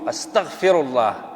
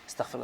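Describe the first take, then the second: First: It is said once, slowly and with care. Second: It is rattled off quickly, in a rapid series. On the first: The person sincerely asks for forgiveness. The speaker calls it right. "Si tu le dis une fois, correct et juste, avec sincérité" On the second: The person repeats it mechanically without attention. The speaker calls it wrong. "Non, c'est pas comme ça on demande le pardon"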